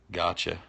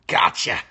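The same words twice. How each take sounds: First: Said in the usual way. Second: "Gotcha!" shouted loud and rising. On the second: Acted. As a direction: yell "Gotcha!" like springing a trap.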